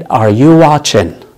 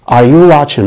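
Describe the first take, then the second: First: Each word drawn out slowly; slow teaching model of Are you watching; slow demo. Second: Said in the usual way. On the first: Shown as a demonstration. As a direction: spell it out slowly for learners. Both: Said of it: "هل أنت بتشاهد؟".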